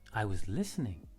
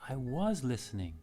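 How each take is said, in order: First: The stress falls on the word listening. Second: The stress falls on the word was. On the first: Listening was the activity being done. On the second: The listening really did happen, contrary to the claim.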